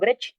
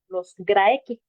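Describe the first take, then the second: First: The word is said with Italian-style Latin pronunciation. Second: The word is said without Italian-style Latin pronunciation.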